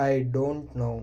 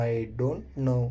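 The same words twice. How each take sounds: The two takes are said the same way.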